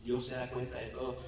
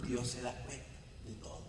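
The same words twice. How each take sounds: First: Said in the usual way. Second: Hushed. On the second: Acted.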